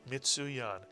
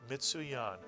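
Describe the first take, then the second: Both takes have the same delivery.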